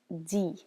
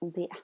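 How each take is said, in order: First: It is pronounced as the word for 'they'. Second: It is pronounced like the word for 'it'. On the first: The speaker calls it right. "Pay attention to the pronunciation" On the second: The speaker calls it wrong. "not de"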